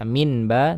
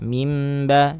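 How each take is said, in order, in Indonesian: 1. Bunyi sengau sebelum b adalah bunyi n. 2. Bunyi sengau sebelum b adalah bunyi m. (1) "tidak dibaca minba" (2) "seperti ada huruf mim ya"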